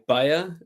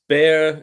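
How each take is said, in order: First: The name is said with a German pronunciation. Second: The name is said with an English pronunciation. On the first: "In Germany, we say Bayer" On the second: "your pronunciation is Bayer"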